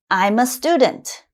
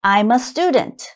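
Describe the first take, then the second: No difference in how they are said.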